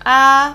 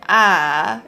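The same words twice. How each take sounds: First: It is said in Mandarin first tone. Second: It is said in third tone, going down. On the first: "which is first tone" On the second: "third tone, it goes down"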